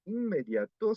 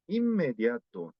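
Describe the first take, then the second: First: "inmediato" broken up, higher at the end; pause between syllables. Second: "inmediato" as "immediato" with a long M; linked, N as M. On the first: Teacher showing the Korean mistake, "inmediato" in pieces. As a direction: separate "in" from "mediato" with a clear N. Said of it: "suele dar pausa entre sílabas". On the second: Teacher correcting students, "inmediato" joined on a held M. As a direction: merge the N into the M of "inmediato". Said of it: "Se pronuncia con una, una M". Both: Shown as a demonstration.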